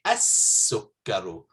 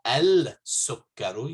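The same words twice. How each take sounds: First: As-sukkaru with a doubled s, no l; right as-sukkaru. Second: Al-sukkaru with the l sounded; wrong al-sukkaru. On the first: Teacher gives students the correct as-sukkaru. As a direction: say as-sukkaru, lam silent. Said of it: "you say as-sukkaru". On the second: Teacher shows students the wrong al-sukkaru. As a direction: say al-sukkaru with a clear lam. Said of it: "You don't say al-sukkaru". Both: Shown as a demonstration.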